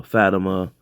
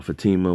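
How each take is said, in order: First: Fatima said FAT-uh-muh; first-syllable stress. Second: Fatima said fuh-TEE-muh; second-syllable stress. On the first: Unsure of the character's name, offers Fatima as FAT-uh-muh. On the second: Offering the other way to pronounce it, Fatima as fuh-TEE-muh. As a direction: stress the middle of Fatima, long "ee". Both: Shown as a demonstration. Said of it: "however you wanna pronounce it".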